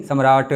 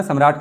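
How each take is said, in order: First: सम्राट with the final ट released into a drawn-out 'uh'; wrong pronunciation. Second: Said in the usual way. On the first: Shown as a demonstration. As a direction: drag out सम्राट, adding a vowel after ट. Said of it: "सम्राट नहीं कहना". (सम्राट के अंत में 'अ' खींचकर) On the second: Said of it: "सम्राट कहते हैं".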